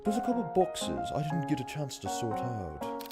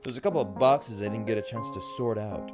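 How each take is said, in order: First: It is said in a put-on British accent. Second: It is said in the speaker's normal accent.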